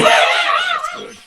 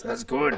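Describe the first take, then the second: First: Very high, loud squeal while laughing; squeaky laughing voice. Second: Lightly voiced commentator line; quoting commentator. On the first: Pretend. Laughing repeat of quote. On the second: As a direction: toss it off like the commentator.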